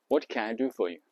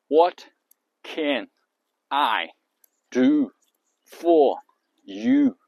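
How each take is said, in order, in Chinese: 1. 词会围绕重音连在一起说。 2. 每个词分开说，轻重一样。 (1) "但是你按照重音来" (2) "你一个音节一个音节说"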